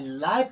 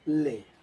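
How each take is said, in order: First: The vowel sounds like 'eye'. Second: The vowel sounds like 'ay'. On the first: The speaker calls it wrong. "गलत होगा" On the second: The speaker calls it right. "लेकिन इसका सही होगा ले"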